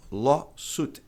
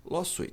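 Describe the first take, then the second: First: LAWSUIT as "LAW-soot"; correct pronunciation of lawsuit. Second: LAWSUIT as "law-SWEET"; wrong pronunciation of lawsuit. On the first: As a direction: stress long LAW, then "soot". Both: Shown as a demonstration. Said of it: "E não lawsuit".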